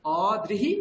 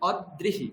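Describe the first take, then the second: First: "অদৃহি" as open o, then drihi; joined dri. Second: "অদৃহি" as od-drihi, doubled d; split consonants. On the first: Teacher contrasts two words for student, dri joined. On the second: Teacher contrasts two words for student, d split. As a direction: hold the d in "অদৃহি" before drihi. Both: Shown as a demonstration. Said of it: "বোঝা গেল দুটো জিনিস".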